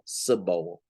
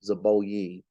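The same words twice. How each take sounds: First: Zeboim said with a sharp tss at the start, tse-bo-im. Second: Said in the usual way. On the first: Shown as a demonstration. Preacher teaching the congregation the name Zeboim, with a ts sound. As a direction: start Zeboim with a hissed ts instead of a z. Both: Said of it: "the Z is really a tss sound".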